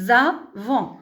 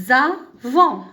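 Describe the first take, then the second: No difference in how they are said.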